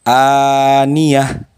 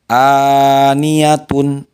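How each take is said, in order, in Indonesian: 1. Kata ini berakhir dengan bunyi h. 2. Kata ini berakhir dengan suku kata -tun. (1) "dibacanya jadi berubah menjadi ha ketika diwakafkan" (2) "Contoh aniyatun"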